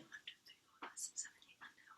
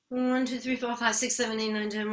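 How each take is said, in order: First: It is counted in a whisper. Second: It is counted in a full voice.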